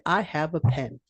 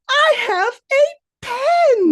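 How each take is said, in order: First: It is said plainly, without emotion. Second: It is said with excited emotion.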